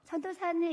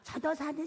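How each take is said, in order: First: The voice sounds clear and fresh. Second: The voice sounds hoarse and worn out. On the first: The speaker has not been praying much. The speaker calls it wrong. "목이 쌩쌩해가지고" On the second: The speaker has been praying a lot. The speaker calls it right. "다 쉬어가지고"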